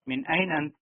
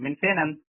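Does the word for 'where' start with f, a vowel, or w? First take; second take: vowel; f. First: The middle word begins with a vowel sound. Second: The middle word begins with an f sound. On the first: "असल वर्ड यही है एन" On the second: "फेन तीनों तरीके से बोला जाता है"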